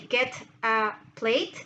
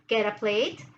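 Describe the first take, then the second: First: The T is released separately before a. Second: The T links smoothly and quickly into a. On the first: "it's quite um, difficult to say" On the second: "if you mix them together... so like fast"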